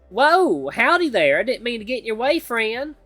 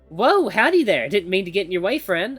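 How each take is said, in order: First: It is said in a thick Southern accent. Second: It is said without a Southern accent.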